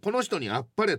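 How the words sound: It is said coolly, in a low detached tone. The speaker is holding back, slightly cynical. The speaker calls it wrong. "ちょっとハスに構えておかれたら"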